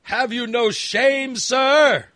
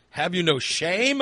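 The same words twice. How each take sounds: First: Higher, louder, slow hammed-up scolding; mock outrage. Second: Mock scolding. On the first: Scolding the smelly friend, hammed-up loud mock outrage. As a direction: ham up the indignation, slowly and loudly. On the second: Scolding the smelly friend.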